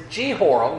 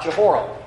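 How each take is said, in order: First: Jehoram said jee-HOR-um, long E first; proper Bible pronunciation. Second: Jehoram said juh-HOR-um, reduced first vowel; rejected pronunciation. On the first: Preacher teaching the website's version, Jehoram with long "jee". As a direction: open Jehoram on a clear "jee". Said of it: "according to this Bible pronunciation site". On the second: Preacher showing the version to avoid, Jehoram with short "juh". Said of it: "not Jehoram". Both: Shown as a demonstration.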